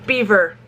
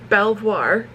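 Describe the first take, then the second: First: It is said as beaver, English style. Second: It is said as bel-vwar, French style. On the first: The speaker calls it right. "not pronounced Belvoir Farms, because the Brits never pronounce French spelled words" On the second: The speaker calls it wrong. "what I thought was Belvoir, because it's kind of like the French"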